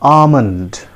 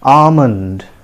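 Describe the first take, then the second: First: The L sound is left silent. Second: The same.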